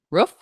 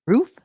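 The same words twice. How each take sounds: First: "Roof" with a short oo as in book; pron of roof. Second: "Roof" with a long oo as in food; pron of roof. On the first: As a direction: say "Roof" rhyming with hoof. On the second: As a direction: say "Roof" rhyming with proof. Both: Shown as a demonstration. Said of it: "try and pronounce".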